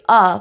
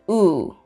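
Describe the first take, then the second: First: The vowel is a short, open uh sound. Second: The vowel is a rounded oo sound. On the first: The speaker calls it wrong. "So not necessarily uh" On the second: The speaker calls it right. "but U"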